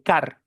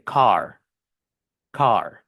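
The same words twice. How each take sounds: First: "car" with a Spanish a and a tapped r. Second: "car" with a deep open A and a curled American r; slow, open "car" with a curled r. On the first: Teacher showing the wrong way to say "car". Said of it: "Y no se dice car". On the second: Teacher modeling the correct American "car". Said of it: "se dice car". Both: Shown as a demonstration.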